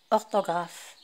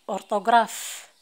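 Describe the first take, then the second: First: أورتوغراف said the French way, ortograf with a French r; French pronunciation. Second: أورتوغراف read as urtograf with a rolled Arabic r; أورتوغراف said the Arabic way, urtograf, rising at the end; Arabic-style reading. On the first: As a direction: correct it to French: أورتوغراف as ɔʁtɔɡʁaf, falling. (نطق أورتوغراف بالفرنسية الصحيحة: أورتوغراف) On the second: (نطق أورتوغراف بالطريقة العربية: أورتوغراف) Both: Shown as a demonstration.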